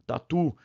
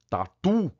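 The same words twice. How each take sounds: First: Said in the usual way. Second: "tatu" called out with a stretched, higher TU; playground call. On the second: Shown as a demonstration. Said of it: "chama no parquinho".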